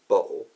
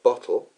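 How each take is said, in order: First: The middle t is replaced by a glottal stop. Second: The middle consonant is a clear t sound. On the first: It is how a Londoner says it. The speaker calls it wrong. "a Londoner saying bottle" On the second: It is the standard way of saying it. The speaker calls it right. "instead of the T sounds, which they should be making"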